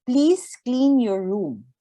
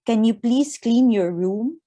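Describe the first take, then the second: First: Slow, firm instruction, falling on "room"; deliberate statement, "room" brought down at the end; clear prompt. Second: Polite request with "room" lifting at the end; questioning tune, rising on "room"; asked as a question. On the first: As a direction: say "Please clean your room" as a clear, measured directive. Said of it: "It should be clear". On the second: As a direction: make "Can you please clean your room" a real question. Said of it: "avoid asking a question". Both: Shown as a demonstration.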